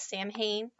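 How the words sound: It is read as the English spelling suggests. The speaker calls it wrong. "it looks like it should be pronounced as Samhain"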